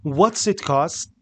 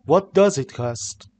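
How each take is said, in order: First: "What's" said as one short clipped syllable with the s run into "it"; slow, careful contraction "What's it cost?"; contracted what's. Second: Said in the usual way. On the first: Shown as a demonstration. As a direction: squeeze "What's it" together, spoken only, slowly.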